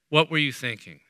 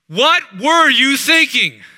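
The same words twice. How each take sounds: First: It is asked in a gentle, open tone. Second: It is asked in an aggressive, accusing tone.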